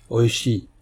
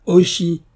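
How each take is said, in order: First: Lightly voiced samurai calling the name out; a hint of a deep warrior's call into the dark. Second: Higher, louder menacing call; more menacing. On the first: Samurai calls the blind man's name, lightly voiced. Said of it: "appela la voix profonde du samouraï". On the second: Samurai calls the silent blind man again, menacing. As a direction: make the name a threat. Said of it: "d'un ton plus menaçant". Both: A narrator's reading.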